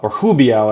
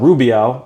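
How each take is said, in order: First: The name begins with an H-like sound. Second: The name begins with an English R sound. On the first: The speaker calls it right. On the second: The speaker calls it wrong.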